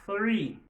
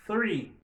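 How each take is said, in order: First: Teacher drills Three for the class; model word. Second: Three said again with the th, falling; model word repeated. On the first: Teacher models Three for students to repeat. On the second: Teacher models Three again for repeating. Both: Shown as a demonstration.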